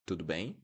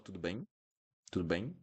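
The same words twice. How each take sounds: First: Tudo bem with mouth open at end; open nasal ending. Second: Tudo bem with bem shut off, rising; wrong closed ending. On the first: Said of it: "keep it open". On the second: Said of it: "Don't close it". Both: Shown as a demonstration.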